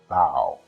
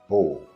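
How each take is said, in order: First: The vowel sounds like 'ow' in cow. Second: The vowel sounds like 'oh' in go. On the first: Bending forward in respect. "that is O W sound" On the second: A weapon for shooting arrows. "which is O sound"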